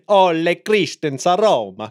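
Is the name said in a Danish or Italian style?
Italian. The name is said with an Italian-sounding accent. The speaker calls it wrong. "why did you say it as if he was Italian?"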